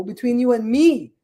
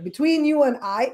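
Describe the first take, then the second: First: Firm landing on "me", falling at the end; corrected example. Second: Higher pitch, lifting at the end on "I"; wrong example. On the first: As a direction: correct it, stressing "me" with a fall. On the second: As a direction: quote it with a questioning lift on "I". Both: Shown as a demonstration.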